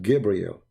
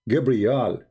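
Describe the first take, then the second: First: The last syllable is said with an 'el' vowel. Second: The last syllable is said with an 'al' vowel. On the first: This is the later form of the name. The speaker calls it wrong. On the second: This is the older form of the name. The speaker calls it right.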